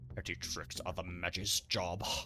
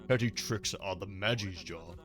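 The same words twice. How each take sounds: First: It is said in a put-on cool character voice. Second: It is said in his ordinary reading voice.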